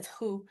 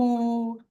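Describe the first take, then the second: First: It starts with an h sound. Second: It starts with a w sound. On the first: The speaker calls it right. "but it's not. It's who" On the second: The speaker calls it wrong. "My students always say woo"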